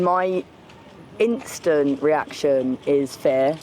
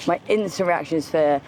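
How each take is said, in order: First: Slow emphasis. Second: Said in the usual way. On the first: Real, not acted.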